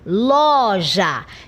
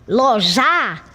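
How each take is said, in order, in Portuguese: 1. A tônica está na primeira sílaba. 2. A tônica está na última sílaba. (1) "eu coloco maior ênfase na sílaba inicial" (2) "então a sílaba tônica se torna a última sílaba"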